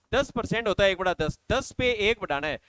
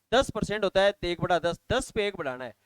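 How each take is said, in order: Both takes have the same delivery.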